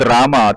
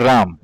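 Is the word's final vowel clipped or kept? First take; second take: kept; clipped. First: The word ends with a full final vowel. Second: The word ends with the final vowel cut. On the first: "तुम्ही म्हणालात" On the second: "ते म्हणतील"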